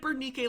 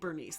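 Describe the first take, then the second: First: The consonant near the end is a k sound. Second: The consonant near the end is an s sound. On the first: This is the Greek way of saying the name. "like it's supposed to be in Greek" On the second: This follows how the name is spelled. "it is literally Bernice"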